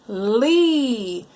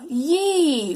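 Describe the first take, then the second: First: The syllable begins with an L sound. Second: The syllable begins with a Y sound. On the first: The speaker calls it right. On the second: The speaker calls it wrong.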